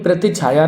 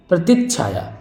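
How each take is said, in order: First: प्रतिछाया run on as "prati-chhaya"; no doubling before chh in प्रतिछाया; single-consonant mistake. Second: प्रतिच्छाया with a held "tich-chh"; correct doubled consonant. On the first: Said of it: "प्रतिछाया नहीं". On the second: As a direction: pause on the half ch in प्रतिच्छाया. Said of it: "आधा चा होगा". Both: Shown as a demonstration.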